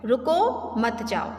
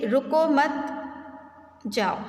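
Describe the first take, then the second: First: रुको drawn out and rising, break, then मत जाओ together; slow demo with a clear break after रुको; pause after रुको. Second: रुको मत run together, long pause, then जाओ falling; slow demo with a clear break after मत. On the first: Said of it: "रुको के बाद अगर हमने विराम चिन्ह". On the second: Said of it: "रुको मत के आगे अगर हमने विराम चिन्ह". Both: Shown as a demonstration.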